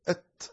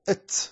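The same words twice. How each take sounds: First: The final t is released with audible breath. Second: The final t is released with an s-like hiss. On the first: The speaker calls it right. "لكنك تنطق أت أت، فهذا هو الهمس" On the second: The speaker calls it wrong. "تاء مشمومة بالسين"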